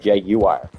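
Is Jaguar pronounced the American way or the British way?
British. The word is pronounced the British way. "instead of Jaguar"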